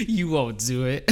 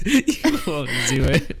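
First: Said in the usual way. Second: Slow, laughing through the words. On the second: Pretend. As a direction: giggle it out slowly. Retake while laughing.

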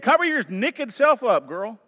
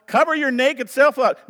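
First: High, playful Southern scolding with "naked" as "nekkid"; Southern accent. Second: Said in the usual way. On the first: Shown as a demonstration. Pastor quoting how the South scolds a girl, Southern accent. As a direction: say it Southern, "naked" becoming "nick-id". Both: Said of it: "as we say in the South".

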